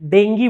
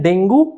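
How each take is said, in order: First: The word ends with an 'ee' sound. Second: The word ends with an 'oo' sound. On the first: This is the proper English pronunciation. The speaker calls it right. "डेंगी बोलते हैं pronunciation" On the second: This is the everyday Hindi way of saying it. The speaker calls it wrong. "Hindi में बोलते हैं डेंगू"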